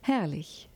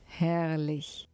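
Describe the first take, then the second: First: Herrlich breathed out in a whisper, falling. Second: Said in the usual way. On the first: A narrator's reading. Narrator savouring the word, whispered.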